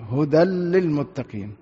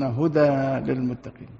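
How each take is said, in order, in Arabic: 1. يُدغم صوت النون الأخيرة في اللام التي بعدها. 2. يُنطق صوت النون الأخيرة بوضوح قبل اللام. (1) "يدغم الغنة عند اللام والراء" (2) "من غير إدغام"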